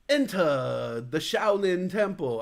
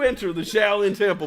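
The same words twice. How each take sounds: First: It is said in a put-on foreign accent. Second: It is said in a plain American accent. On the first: The speaker calls it wrong. "maybe I should not do that voice" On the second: The speaker calls it right. "Maybe I'll just do it American"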